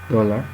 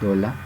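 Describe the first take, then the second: First: The word ends in a central schwa vowel. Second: The word ends in an open a vowel.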